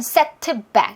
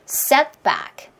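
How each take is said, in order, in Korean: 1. t는 터뜨려서 단어를 끊어 놓습니다. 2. t는 뒤의 back 앞에서 터뜨리지 않고 막은 상태로 둡니다. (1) "다 끊어져 버리겠죠?" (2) "stop 사운드로 처리하면"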